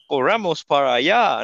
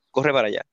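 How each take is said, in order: First: "Corramos para allá" slow and carefully enunciated; "Corramos para allá" drawn out, each word fully pronounced; well-spoken Spanish. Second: Said in the usual way. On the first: Shown as a demonstration. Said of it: "es español bien hablado". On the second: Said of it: "no, es como que".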